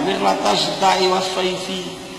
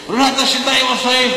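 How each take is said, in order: First: The last word ends on an added 'i' vowel. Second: The last word ends on a consonant. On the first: The speaker calls it wrong. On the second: The speaker calls it right. "kata kiainya"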